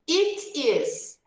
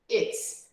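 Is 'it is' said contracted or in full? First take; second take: full; contracted. First: It and is are said as two full words. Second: It and is are merged into one short syllable.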